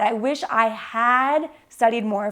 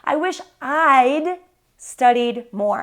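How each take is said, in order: First: I and had are said as separate words. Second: I and had are joined into one short syllable. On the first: "sometimes I say, I had" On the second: "when we speak quickly, we will condense or contract the I and had"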